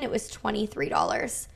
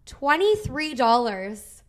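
First: Said in the usual way. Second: "Twenty-three dollars" slow, each word leaned on in disbelief; disbelieving repeat. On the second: Real, not acted. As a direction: drag out "Twenty-three dollars" as if it can't be true.

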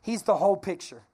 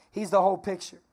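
Both takes have the same delivery.

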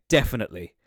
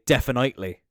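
First: "definitely" said DEF-in-it-lee; short vowel in the third syllable of "definitely"; own pronunciation. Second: "definitely" said DEF-in-ite-lee; long i, as in "night", inside "definitely"; Wicklow pronunciation. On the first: Cork speaker giving their own way, "definitely" as DEF-in-it-lee. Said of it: "I would say". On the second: Cork speaker showing how Wicklow says it, "definitely" as DEF-in-ite-lee. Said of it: "people who are from Wicklow". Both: Shown as a demonstration.

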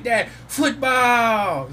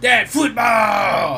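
First: Put-on high, loud, very slow little-kid shout; toddler shouting. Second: Put-on high, loud, very slow child's shout; toddler shouting. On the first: Daughter repeating her demand to dad, shouted high. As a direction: stretch it out like an eager toddler. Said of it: "And she's like". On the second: Three-year-old daughter demanding football, shouted high. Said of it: "she just comes up to me like".

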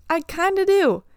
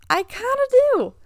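First: "I kinda do" said again, higher and louder with a falling "do"; "I kinda do" repeated as a louder, firmer confirmation; repeated admission. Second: Higher and louder, laughing as she admits it; laughing it out, half embarrassed; laughing admission. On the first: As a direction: confirm it once more with a falling finish. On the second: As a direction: own up with a laugh. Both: Real, not acted. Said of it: "But honestly".

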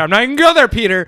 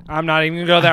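First: Much higher and louder, mock-exasperated; loud refusal. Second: Said in the usual way. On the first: Real, not acted. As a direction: shout it down to shut Peter's bait.

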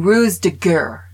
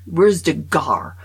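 First: Ruse de guerre said the American way, rooz-duh-gur, loud; mock Americans mangling ruse de guerre; mocking American pronunciation. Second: Ruse de gare dragged out slowly, rooz-duh-garr; slowly mangle ruse de gare like an American; slow mock mispronunciation. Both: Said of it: "they're going".

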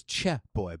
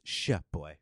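First: Put-on "Che Boy" starting with a hard CH; hard CH sound. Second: Put-on "Sh Boy" starting with a soft SH; soft SH sound. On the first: Telling what was misheard, "Che Boy" with hard CH. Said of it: "I thought it was Che Boy". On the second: Correcting a misheard slang term, "Sh Boy" with soft SH. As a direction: say "Sh Boy" with SH as in shell. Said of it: "maybe it's Sh Boy". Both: Shown as a demonstration.

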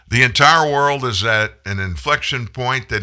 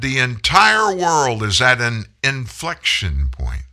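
First: Said in the usual way. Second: Entire stressed, said slowly; mock solemn quote. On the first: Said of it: "I guarantee you that was a written speech". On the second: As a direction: read it like a stiff prepared speech. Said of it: "He said".

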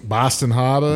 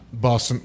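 First: Put-on Boston accent, dropped r in Harbor; broad Boston-accented place name. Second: Said in the usual way. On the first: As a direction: say Harbor as "Hah-buh", Boston style. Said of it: "that's the best accent".

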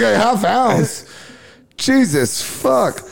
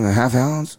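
First: High, slow, amazed repeat of a half ounce; shocked at how much he asked for; stunned disbelief. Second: Said in the usual way. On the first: Real, not acted. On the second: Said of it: "So he goes".

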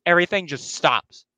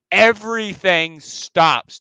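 First: Said in the usual way. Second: EVERYTHING STOPS, slow and higher; weighty, stretched repeat of "Everything stops"; dramatic emphasis. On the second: Real, not acted. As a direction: draw out both words of "Everything stops".

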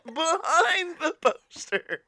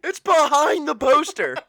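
First: Slow, laughing echo. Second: Loud, high alarm; shocked discovery. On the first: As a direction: repeat it through laughter. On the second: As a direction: gasp at the find. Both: Pretend. Acted discovery.

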